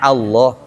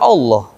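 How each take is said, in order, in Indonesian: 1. Vokal pertama terdengar seperti a. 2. Vokal pertama terdengar seperti o. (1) "a Allah" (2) "Banyak orang bilangnya Allah, jadi o"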